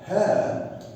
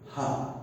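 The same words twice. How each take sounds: First: It is said with a full strong vowel. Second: It is said with a weak schwa vowel. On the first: The person is the object. "I use the strong form" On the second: Something belongs to the person. "we put schwa"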